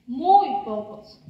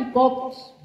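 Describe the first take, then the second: First: "muy pocos" slowed right down, leaning on "muy"; emphatic repeat. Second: Said in the usual way. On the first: Acted. Reading personified telling listeners how few its authors were, slow emphatic repeat. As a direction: stretch out "muy" to stress "muy pocos".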